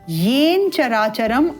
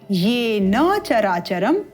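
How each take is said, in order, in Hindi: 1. पहले शब्द का अंतिम स्वर छोड़ा जाता है। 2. पहले शब्द का अंतिम स्वर बोला जाता है। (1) "अनुपयुक्त होगा" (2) "उपयुक्त होगा"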